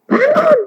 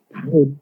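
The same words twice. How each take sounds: First: Very high-pitched mock cry of alarm; squeaky pretend shout; mock yell. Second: Said in the usual way. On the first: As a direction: cry it out high, as if waking someone. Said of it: "Tapi nggak teriak".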